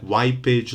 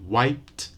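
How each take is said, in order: First: The ending adds an extra vowel syllable. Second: The ending is a bare t sound. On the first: The speaker calls it wrong. "add an extra syllable" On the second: The speaker calls it right. "No extra vowel, no extra syllable"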